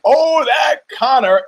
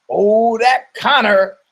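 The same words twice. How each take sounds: First: Much higher, louder, slow gushing cry; exclaimed catchphrase. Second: Higher, louder, slow fond sigh of a catchphrase; sitcom catchphrase. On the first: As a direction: shout it with delight like the studio crowd. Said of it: "Exclamation point". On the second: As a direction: say it like a sitcom audience adoring the star. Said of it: "it's a new sitcom". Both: Retold or imitated.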